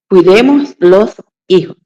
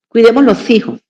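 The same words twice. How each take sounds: First: The words are said slowly and separately. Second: The words are run together quickly. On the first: The speaker calls it right. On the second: The speaker calls it wrong.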